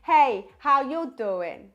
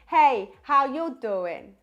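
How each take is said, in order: First: The voice sounds warm, round and balanced. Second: The same.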